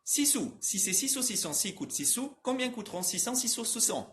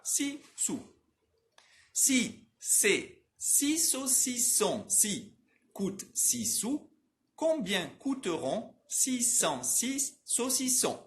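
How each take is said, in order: First: Trava-língua ágil, sílabas encadeadas, tom mais agudo; mais rápido. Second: Trava-língua bem lento e agudo, sílaba por sílaba; devagarzinho. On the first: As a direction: emende as sílabas do trava-língua num ritmo corrido. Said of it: "Eu vou falar mais rápido". (rápido e encadeado, como trava-língua) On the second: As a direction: articule cada sílaba com exagero, sem pressa. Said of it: "Eu vou div-, repetir devagarzinho". (bem devagarzinho, articulação exagerada) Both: Shown as a demonstration.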